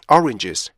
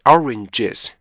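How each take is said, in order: First: The voice fades out toward the end. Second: The voice stays strong to the end. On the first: The speaker calls it wrong. "뒤로 갈수록 점점점 죽으면 안 되고요" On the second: The speaker calls it right. "이렇게 해주셔야 돼요"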